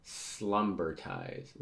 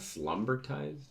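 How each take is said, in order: First: SLUMBERTIZED stretched out very slowly; slow, deliberate slumbertized; drawn-out delivery. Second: Slumbertized repeated higher, as a question; real puzzled, higher-pitched slumbertized; puzzled double-check. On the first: Acted. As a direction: draw out the word slumbertized, at usual pitch. First reading of an odd word. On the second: Real, not acted. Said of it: "Is that what it says?".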